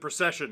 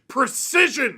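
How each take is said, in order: First: The name sounds like the word procession. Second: The name sounds like the word precision. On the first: This is how the player says his own name. "apparently he pronounces it" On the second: This is how the name is spelled. "the man's name is literally"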